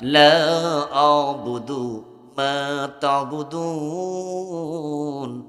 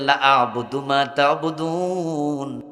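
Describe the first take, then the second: First: The vowel of 'la' is drawn out long. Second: The vowel of 'la' is cut short. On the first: I do not worship what you worship. The speaker calls it right. "এখানে লাতে টান আছে" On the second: I too am willing to worship what you worship. The speaker calls it wrong. "যদি আপনি টান না দেন"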